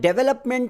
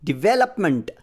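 First: The first syllable is said as "deh". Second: The first syllable is said as "dih". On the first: The speaker calls it wrong. "Again ಇದು ತಪ್ಪಾಗುತ್ತೆ" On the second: The speaker calls it right. "So ಡಿವೆಲಪ್ಮೆಂಟ್ ಹೀಗೆ"

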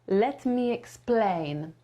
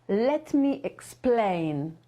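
Both takes have the same delivery.

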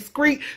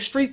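First: The word begins with an 'skr' sound. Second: The word begins with an 'str' sound. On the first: "they say screet"

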